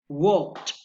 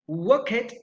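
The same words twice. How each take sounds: First: The past ending is a plain t sound. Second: The past ending is not a plain t sound. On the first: The speaker calls it right. "is correct" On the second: The speaker calls it wrong. "is a mistake"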